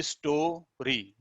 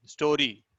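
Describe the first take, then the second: First: story said slowly as two beats, store and री; split into syllables. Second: Said in the usual way. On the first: Shown as a demonstration. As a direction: pause between store and री in story. (Story को स्टो-री अलग-अलग बोलना) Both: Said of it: "दो स्वर का उच्चारण हो रहा है".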